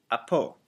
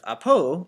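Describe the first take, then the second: First: Apo falling on the second syllable; downward inflection. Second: Apo with a raised, louder second syllable; wrong inflection. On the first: Teacher shows the grave accent on apo, downward inflection. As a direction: let the end of apo drop down. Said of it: "coming downward like that". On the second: Teacher shows students what to avoid, apo inflected upward. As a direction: say apo lifting up on the end. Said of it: "instead of apo". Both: Shown as a demonstration.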